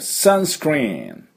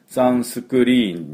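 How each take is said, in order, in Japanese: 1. s-c-r の子音連続は、母音を足さずに発音される。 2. 余分な母音が s-c-r の子音連続を分断する。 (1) "スクル、スクル、スクル、スクリーンって言わないと通じない" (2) "サンスクリーンになっちゃうともう、途端に通じないんですね"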